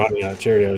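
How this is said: It is said in a flat, casual way. It is just an ordinary breakfast cereal. "you're like, oh, whatever"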